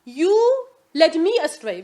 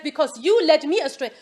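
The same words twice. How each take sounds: First: "You" hit harder and louder, said slowly; stress on YOU. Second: Quoting Iblis with YOU stressed; Iblis blaming. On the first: Shown as a demonstration. Teacher showing students that Iblis puts the blame on "You", stressed. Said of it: "He's the object in the sentence". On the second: Retold or imitated. Teacher quoting Iblis's excuse to the class, blaming. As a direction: say it as a plain blaming quote, YOU leaned on. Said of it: "Look at the sentence".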